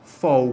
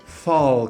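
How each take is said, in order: First: The word ends with a U-like vowel sound. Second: The word ends with a clear L sound. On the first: The speaker calls it wrong. "como se fosse um U" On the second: The speaker calls it right. "com L no final da sílaba"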